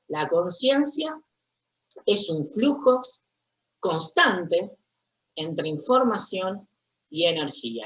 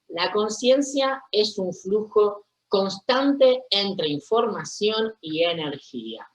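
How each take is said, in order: First: The sentence is spoken more slowly. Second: The sentence is spoken at a normal pace.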